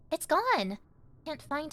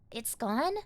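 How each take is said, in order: First: Alarmed realization. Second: Said in the usual way. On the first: Acted. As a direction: realize it is really lost, with a jolt.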